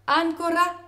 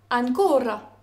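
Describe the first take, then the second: First: "Ancora" with AN stressed; stress on first syllable. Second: "ancora" with a long stressed CO, then falling; stress on middle syllable. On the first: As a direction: hit AN at the start of "Ancora". (« Ancora » accentué sur AN) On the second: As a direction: stretch and hit CO in "ancora". (« ancora » accentué sur CO) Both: Shown as a demonstration. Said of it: "ne se distinguent que grâce à leur accent tonique".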